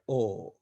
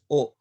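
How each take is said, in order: First: The vowel is long. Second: The vowel is short. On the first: The speaker calls it wrong. "not O" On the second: The speaker calls it right. "Before the joint letter, we pronounce this O as O"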